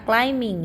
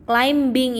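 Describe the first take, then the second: First: "climbing" as klai-ming, no b; "climbing" with m straight into -ing; silent B. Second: "Climbing" with the b sounded, klaim-bing; hard b inside "Climbing"; spelling pronunciation. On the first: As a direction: drop the b in "climbing". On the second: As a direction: say "Climbing" as written, b audible. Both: Shown as a demonstration. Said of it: "B-nya dihilangkan ya".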